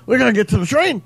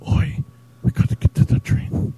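First: Liam impression. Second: A whispered Liam, lines barely voiced; very quiet Liam impression. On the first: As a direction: push the Liam voice up for the crowd. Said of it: "Doing an impression of Liam". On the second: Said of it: "Very quiet".

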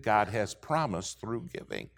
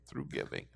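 First: Said in the usual way. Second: Breathy whisper of the last words; hushed repeat for emphasis; whispered echo. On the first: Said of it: "through giving (echoed in a whisper)". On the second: Shown as a demonstration.

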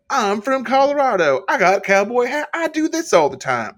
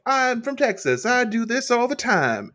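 First: High, loud mock Colorado cowboy brag. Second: High, slow mock Texas drawl; mock Texan. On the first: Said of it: "Malarkey was like". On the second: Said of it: "Casey's like".

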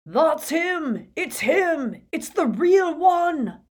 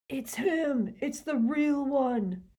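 First: High, loud triumphant yell; Death Eater's shout. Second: Recalled shout. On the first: Acted. Death Eater recognising Harry, loud triumphant shout. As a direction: scream it out in recognition. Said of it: "The hooded Death Eater's shout". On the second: Retold or imitated. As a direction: replay the cry in your head, no volume.

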